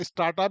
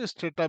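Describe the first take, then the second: First: Strata said as "is-taa-ta" with a broad aa; how some people say strata; common pronunciation. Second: Strata said as "is-tay-ta" with an ay sound; actual pronunciation. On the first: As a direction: strata with a leading i sound and a long open aa. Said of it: "मतलब actual pronunciation है". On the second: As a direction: strata with the ay vowel, the proper way. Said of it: "पर strata is a good name". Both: Shown as a demonstration.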